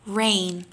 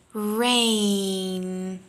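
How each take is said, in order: First: Said in the usual way. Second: "Rain" with the A vowel held long; long drilled vowel. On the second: Shown as a demonstration. Teacher drilling a long A before the n. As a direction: stretch the A in "Rain". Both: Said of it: "Repeat after me".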